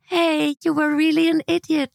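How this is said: The voice sounds sweet and smiling. The insult is meant affectionately. "and I smile really sweet"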